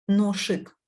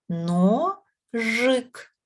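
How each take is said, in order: First: The middle consonant is a voiceless sh sound. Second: The middle consonant is a voiced zh sound. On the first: The speaker calls it wrong. "Ношик вже ж не скажеш" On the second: The speaker calls it right. "ми чуємо ж"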